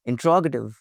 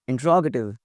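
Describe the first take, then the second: First: It is said with four syllables, in-tro-ga-tive. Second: The same.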